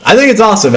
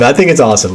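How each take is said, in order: First: An eager "think", pitched well up; excited. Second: Said in the usual way. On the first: Real, not acted. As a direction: gush it with real enthusiasm. Repeats the line more eagerly.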